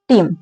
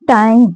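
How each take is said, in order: First: The vowel sounds like 'ee'. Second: The vowel sounds like 'eye'. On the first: This is the older pronunciation. "Middle English का बात कर रहे हैं" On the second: This is the present-day pronunciation. "Modern English में टाइम, और बोला क्या जाता है"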